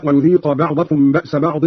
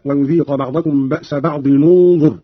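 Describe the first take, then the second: First: Said in the usual way. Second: Slow, linking بعض انظر as "ba'dinun-dhur"; tanween joined with damma. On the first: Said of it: "قرأ قالون بضم أولى الساكنين". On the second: Shown as a demonstration. Teacher showing Qalun's join, بعض انظر linked with "nu", slowly. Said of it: "بضم أولى الساكنين وهو تنوين الضاد".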